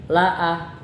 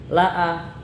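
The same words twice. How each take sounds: The two takes are said the same way.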